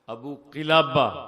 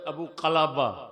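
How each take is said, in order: First: The name's first vowel is an 'i' sound. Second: The name's first vowel is an 'a' sound. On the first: The speaker calls it right. "और ये सही है" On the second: The speaker calls it wrong. "अबा कलाबा गलत पढ़ा है इसने फतह के साथ"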